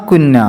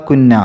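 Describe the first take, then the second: No difference in how they are said.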